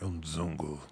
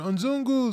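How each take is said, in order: First: The word is said in a hostile, scornful way. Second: The word is said in a friendly, happy way. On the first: It sounds like an insult. "sounds more like a derogatory name" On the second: It is a cheerful greeting. "it sounds like a good thing"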